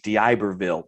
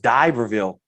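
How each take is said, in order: First: The name is pronounced the standard, navigation-voice way. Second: The name is pronounced the local, regional way. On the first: This is how the navigation system said it. The speaker calls it right. "the G P S was like" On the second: This is how the speaker thought it should be said. The speaker calls it wrong. "no, it's D'Iberville"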